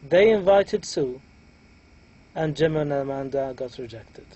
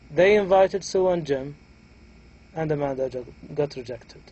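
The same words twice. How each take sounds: First: A rise and break come right after Sue. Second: A rise and break come right after Jim. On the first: Only Sue was invited; the rest were rejected. "here we had a raising intonation at the beginning" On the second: Only Amanda was rejected. "pronounce it a bit differently"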